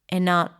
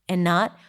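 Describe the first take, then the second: The two takes are said the same way.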